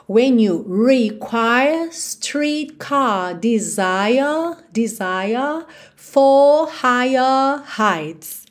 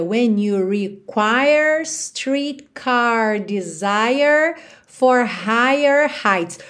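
First: British accent. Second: Slow American line with every final R curled; American accent. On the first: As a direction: stretch the vowels where the R would be. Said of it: "Já com a [name] cantando". (sotaque britânico, vogais alongadas sem R) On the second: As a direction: curl each R slowly. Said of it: "no americano a gente teria". (sotaque americano com R enrolado) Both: Shown as a demonstration.

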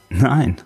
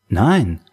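First: Chuckled, higher-pitched denial; a small self-mocking laugh into the word; laughing at himself. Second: Said in the usual way. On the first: A narrator's reading. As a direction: say it through a light, sheepish laugh. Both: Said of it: "er lachte über sich selbst".

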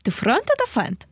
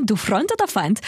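First: Put-on higher Russian accent movie quote. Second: Put-on light Russian accent quote. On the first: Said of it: "Traumschiff Surprise". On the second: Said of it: "mit russischem Akzent gesagt".

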